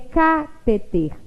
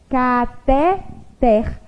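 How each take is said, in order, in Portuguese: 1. O acento está na primeira sílaba. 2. O acento está na última sílaba. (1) "se ela fosse proparoxítona, ela também teria acento na antepenúltima sílaba" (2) "a forma correta de se pronunciar essa palavra"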